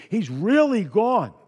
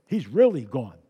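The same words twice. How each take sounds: First: "really" stretched out slow and loud; slow, emphatic "He's REALLY gone"; stress on really. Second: Said in the usual way. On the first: Shown as a demonstration. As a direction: lean hard on "really", drawn out and raised.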